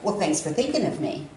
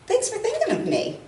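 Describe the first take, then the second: First: It is said sarcastically, resentfully. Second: It is said warmly and sincerely.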